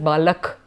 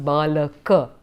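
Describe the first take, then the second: First: The word is clipped, ending without a final vowel. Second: The word is said in full, with its final vowel. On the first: This is how Hindi speakers say it. "in Hindi ... you would have to pronounce it as balak" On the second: This is how it is said in Sanskrit. "in Sanskrit you have to pronounce it as balak"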